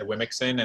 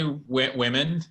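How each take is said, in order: First: It is said as three syllables with an x sound. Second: It is said as two syllables, like women. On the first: The speaker calls it wrong. "very embarrassingly, the first time I read it out loud, said Wimixon" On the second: The speaker calls it right. "I just say women"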